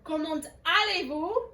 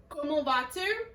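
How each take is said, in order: First: "Comment allez-vous?" with the T sounded before "allez"; T linked to vowel. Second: "comment vas-tu" with no T ending "comment"; silent T before consonant. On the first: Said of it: "we pronounce the T at the end of that word". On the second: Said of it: "There is no vowel at the beginning". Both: Shown as a demonstration.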